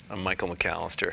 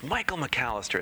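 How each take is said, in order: First: Said in the usual way. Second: Raised pitch, savoring the name; imitated hearty greeting. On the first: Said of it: "and I sa-, I said". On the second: Columnist greets the teacher by name, imitated hearty greeting. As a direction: greet the name with playful delight. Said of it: "he goes".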